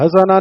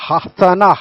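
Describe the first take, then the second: First: The h is a plain light sound. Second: The h is a deep throaty sound. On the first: The speaker calls it wrong. "हसना नहीं, हंसने वाली हसना नहीं है" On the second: The speaker calls it right. "हा के साथ"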